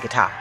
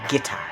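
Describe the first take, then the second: First: Guitar is said the speaker's everyday way. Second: Guitar is said the older-generation way. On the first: This is how the speaker normally says it. "I typically would say guitar" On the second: This is how people born before the fifties say it. "my grandmother would say guitar"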